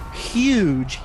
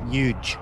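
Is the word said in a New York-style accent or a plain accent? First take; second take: plain; New York. First: The word is said in a plain accent. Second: The word is said in a New York-style accent. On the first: "he doesn't say huge" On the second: "he's from New York, ... he says huge"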